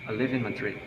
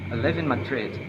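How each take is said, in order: First: The voice simply falls at the end. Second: The voice rises and then falls. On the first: It is a plain finished statement. "Statements information using following intonation" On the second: The speaker has more to add. "the voice rise, then falls"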